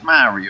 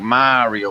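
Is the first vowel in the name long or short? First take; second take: short; long. First: The first vowel is short and quick. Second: The first vowel is drawn out long. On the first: This is how people elsewhere say it. "whereas like Eagles will be like" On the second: This is how people in New Orleans say it. "we drag that A out a little bit longer"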